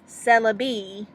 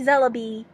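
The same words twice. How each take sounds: First: The word is said slowly and clearly. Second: The word is said quickly and slurred. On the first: The speaker calls it right. "There we go" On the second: The speaker calls it wrong. "I kind of said that so fast it didn't sound correct"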